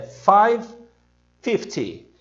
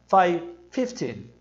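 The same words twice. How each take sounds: First: "five", pause, then front-stressed "fifty"; five fifty as heard. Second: "fifteen" as FIF-tin, short ending; learner's mistaken "fifteen"; wrong stress on FIF. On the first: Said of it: "entende que o seu horário é". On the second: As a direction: say "five fifteen" with the weight on fif. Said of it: "Se você disser". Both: Shown as a demonstration.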